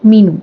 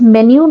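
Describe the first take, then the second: First: The first syllable is 'mee', then 'noo'. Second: The first syllable is 'meh', then 'nyoo'. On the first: The speaker calls it wrong. "Not मीनू" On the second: The speaker calls it right. "We pronounce it as मेन्यू"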